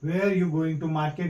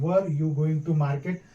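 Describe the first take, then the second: First: The first word sounds like 'wear'. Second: The first word sounds like 'wur'. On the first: "वेयर" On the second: "वेयर की जगह पर वर भी कर सकते हैं"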